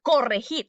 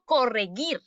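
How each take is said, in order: First: "corregir" said as "correjir"; throaty Spanish j in the "gir" of "corregir"; teacher models "corregir" clearly with a j sound; correct soft G. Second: "corregir" said as "correguir"; "corregir" with its last syllable like "guir"; wrong hard G. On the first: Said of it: "Yo digo". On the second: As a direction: demonstrate the mistake, hard g in "corregir". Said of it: "pero yo no digo". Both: Shown as a demonstration.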